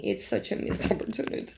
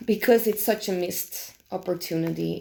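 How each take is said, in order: First: Softer, with a rueful laugh breaking in; laughing rueful repeat. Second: Said in the usual way. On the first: Real, not acted. Reviewer laughing to viewers at the missed chance, softly rueful. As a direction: laugh at your own disappointment, quietly.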